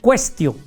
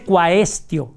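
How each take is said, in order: First: The A in the first syllable is silent. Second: The A in the first syllable is sounded. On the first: The speaker calls it right. "sino quaestio" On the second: The speaker calls it wrong. "no se pronuncia la A. Entonces no se dice quaestio"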